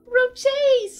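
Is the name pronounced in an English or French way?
English. The name is pronounced the plain English way.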